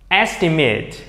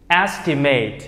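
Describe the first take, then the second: First: The last syllable sounds like 'it'. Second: The last syllable sounds like 'eight'. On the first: It is used as a noun. "Còn bên này thì nó là tính từ và danh từ" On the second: It is used as a verb. "từ này có nghĩa là ước tính nên là động từ"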